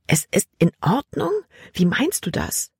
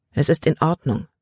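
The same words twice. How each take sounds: First: Higher, indignant echo question; angry disbelief. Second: Even, unruffled reassurance; calm. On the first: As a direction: throw "in Ordnung" back with a sharp rise. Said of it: "Libby war wütend". (wütend und ungläubig nachgefragt) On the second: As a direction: settle it with a falling tune. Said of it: "Caleb sah so ruhig aus". (ruhig und gelassen) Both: A narrator's reading.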